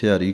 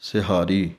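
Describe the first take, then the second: First: It is said without an h sound. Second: It is said with an h sound. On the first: The speaker calls it wrong. "ਕਈ ਸਿਹਾਰੀ ਕਹਿ ਦਿੰਦੇ ਹਨ ਐੜੇ ਦੇ ਨਾਲ" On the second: The speaker calls it right. "ਸ਼ੁੱਧ ਉਚਾਰਨ ਹੈ ਹਾਹੇ ਦੇ ਨਾਲ"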